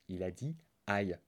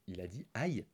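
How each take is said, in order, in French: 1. La voix descend à la fin, comme une affirmation. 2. La voix monte à la fin, comme une question. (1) "c'est un point" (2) "c'est pas un point d'interrogation"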